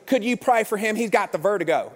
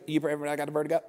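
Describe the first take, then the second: First: Interpreting relative. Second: Low, softer, slurred request; mumbling man. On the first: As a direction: say it plainly for someone who didn't understand. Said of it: "And she goes". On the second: Man asking for prayer, low unintelligible mumble. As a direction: run the words together so they barely make sense. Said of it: "what did you say?". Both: Retold or imitated.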